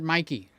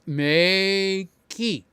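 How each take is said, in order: First: The first syllable sounds like 'my'. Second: The first syllable sounds like 'may'. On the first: This is how most people say the name. "we call it Mikey" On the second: This is how the company says the name. "the correct pronunciation is Makey. Like May, the month of, key"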